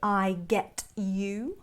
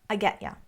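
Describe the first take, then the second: First: The t is crisp and 'you' is full. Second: The t sounds like d and 'you' is 'ya'. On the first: It sounds rather posh. "It's rare that I would say" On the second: It sounds more colloquial. "the T becomes more of a D and the U becomes ya"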